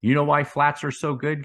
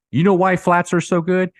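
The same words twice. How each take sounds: First: Said in the usual way. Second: Louder and higher, pressing the question; excited emphasis. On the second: Real, not acted. YouTuber presses viewers on flats, louder and excited. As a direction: hit it again with real excitement.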